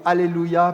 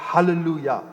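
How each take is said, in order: First: The word starts without an h sound. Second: The word starts with an h sound. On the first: The speaker calls it wrong. "ils diront Alléluia" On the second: The speaker calls it right. "plutôt que Hallelujah"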